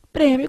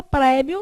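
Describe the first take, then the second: First: Prêmio with a closed, nasalised ê; closed vowel. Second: Prêmio with an open é, not nasalised; open vowel. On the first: Teacher shows class the circumflex form, prêmio with closed ê. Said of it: "com acento circunflexo". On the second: Teacher shows what Brazilians never say, prêmio with open é. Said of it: "Você não fala prêmio nunca". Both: Shown as a demonstration.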